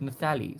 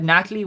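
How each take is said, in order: First: The middle consonant is a TH sound. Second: The middle consonant is a plain T sound.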